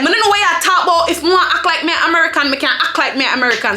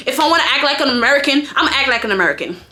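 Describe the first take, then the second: First: Quick patois comeback; retold retort in quick patois; Jamaican patois. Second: Said in the usual way. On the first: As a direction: argue back fast in Jamaican patois. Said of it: "I was arguing backward". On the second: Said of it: "So I'm like, I'm saying".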